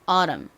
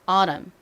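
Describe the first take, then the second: First: The middle t is a soft, l-like flap. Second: The same.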